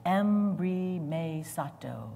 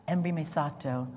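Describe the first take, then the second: First: Embrimesato drawn out slowly, each syllable em-bri-may-sa-toh clear; slow Greek word. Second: Said in the usual way. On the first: Shown as a demonstration. Preacher introducing the Greek word, embrimesato said slowly. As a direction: spell embrimesato out with your voice. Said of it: "One word". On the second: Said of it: "Can you say that?".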